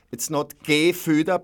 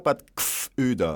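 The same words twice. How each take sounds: First: Gefüder as ge-FÜ-der, three syllables; Gefüder with the e sounded out; wrong pronunciation. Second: Gfüder slow, g straight into f, no vowel; Gfüder, dropping the e after the g; slowly, Gfüder as two syllables; right pronunciation. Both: Shown as a demonstration.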